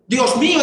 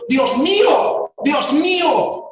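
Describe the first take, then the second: First: Said in the usual way. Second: Lento y fuerte, clamando a Dios; exclamación de dolor. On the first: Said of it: "primero habla". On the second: Retold or imitated. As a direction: estira cada palabra como un grito desde la cruz. (clamor lento y doliente)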